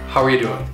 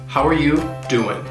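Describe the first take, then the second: First: The g is dropped; 'are you' blends together. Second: The g is dropped; 'are you' stays clear. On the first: "it can get reduced even further" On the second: "the G in doing will get dropped"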